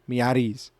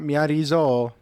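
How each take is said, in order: First: The name ends with a plain 's' sound. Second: The name ends with an added 'zo' syllable. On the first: The speaker calls it right. "they don't say the Zol part" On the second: The speaker calls it wrong. "not Miyarizo"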